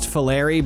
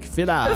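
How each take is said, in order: First: The name is said with English pronunciation. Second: The name is said with Italian pronunciation. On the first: This is how the family said it growing up. "I was raised Filari" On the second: This is the original Italian way. "if you're saying it Italian, it's probably like Filari"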